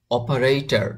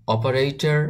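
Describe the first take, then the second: No difference in how they are said.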